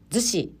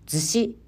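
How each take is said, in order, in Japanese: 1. 標準語の東京式アクセントで発音されています。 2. 関西式アクセントで発音されています。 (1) "逗子ではなく" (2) "逗子となっており"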